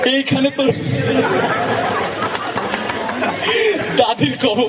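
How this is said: It is recited through laughter. A cheerful person who laughs a lot is reciting. "সে একটু হাসে বেশি"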